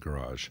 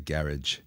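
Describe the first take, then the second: First: It is said in an American accent. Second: It is said in an Australian accent.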